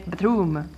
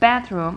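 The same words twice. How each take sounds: First: The stress is on the second part, room. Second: The stress is on the first part, bath.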